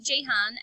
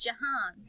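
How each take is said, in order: First: The first vowel sounds like a short 'i'. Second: The first vowel sounds like an 'a'. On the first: The speaker calls it wrong. "we've all been saying it wrong" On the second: The speaker calls it right. "It's Jahan because it's got two A's"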